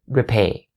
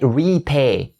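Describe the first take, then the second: First: The first syllable has a short E vowel. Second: The first syllable has a long E vowel. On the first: The speaker calls it right. "the first syllable has the short E sound" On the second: The speaker calls it wrong. "You don't say repay"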